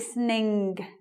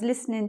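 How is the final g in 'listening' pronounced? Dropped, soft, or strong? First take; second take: strong; dropped. First: The final g sound is rung out strongly. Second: The final g sound is dropped entirely. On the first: This is a feature of some northern accents. "ring the G" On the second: This is relaxed, informal speech. "You don't hear the G there"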